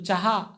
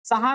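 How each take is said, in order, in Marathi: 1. पहिला व्यंजन तालव्य आहे, त्यात y सारखा सरकता आवाज आहे. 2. पहिला व्यंजन साधा दंत्य ts आवाज आहे. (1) "च ला य लागल्यासारखा" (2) "चहा नाही म्हणत"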